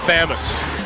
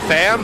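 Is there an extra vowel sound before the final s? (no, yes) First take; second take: yes; no. First: It has an extra vowel before the final s. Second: It is one syllable with no extra vowel. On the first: The speaker calls it wrong. "We tried to just not say the U" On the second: The speaker calls it right. "We tried to just not say the U"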